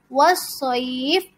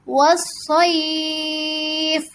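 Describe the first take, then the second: First: The vowel before the end is held briefly. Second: The vowel before the end is held very long. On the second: "Atau enam harokat"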